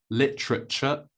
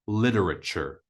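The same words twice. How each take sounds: First: Literature as LIT-truh-chuh; British literature, three syllables, crisp T, no final R; British pronunciation. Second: Literature as LID-er-uh-cher; American literature, flapped T and sounded R; American pronunciation. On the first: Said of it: "So in British English". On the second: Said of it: "American English". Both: Shown as a demonstration.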